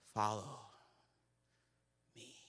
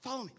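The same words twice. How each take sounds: First: It is said theatrically with a dramatic pause. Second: It is called out loudly across a crowd.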